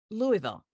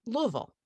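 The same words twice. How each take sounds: First: "Louisville" imitated as the outsider's LOO-ee-vill with three full syllables; wrong Louisville. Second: "Louisville" said the local way, LUH-vul, swallowed into two short syllables. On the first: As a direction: say "Louisville" as loo-ee-vul, every syllable spelled out. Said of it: "pronounced the, the name of the city as". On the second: Shown as a demonstration. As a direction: say "Louisville" like someone from there, luv-ul. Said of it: "two and a half syllables".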